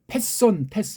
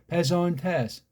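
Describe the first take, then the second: First: The n is hard, with a break before tes. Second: The n blends softly and smoothly into tes. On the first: "우리는 이걸 패손 테스 이렇게 읽잖아요" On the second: "걔네들은 패손 테스, ... 은트자를 갖다 아주 교묘하게 버무리는 거"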